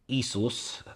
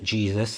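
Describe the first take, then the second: First: The name begins with a Y sound. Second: The name begins with a J sound. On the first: The speaker calls it right. "it's never a J" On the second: The speaker calls it wrong. "the name isn't Jesus"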